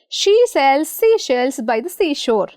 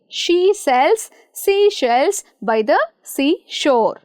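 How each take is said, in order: First: The sentence is spoken at moderate speed. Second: The sentence is spoken slowly. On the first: "speed up a bit" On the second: "Let us start slowly"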